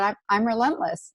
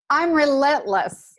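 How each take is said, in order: First: It is said quietly and plainly. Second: It is said loudly and forcefully.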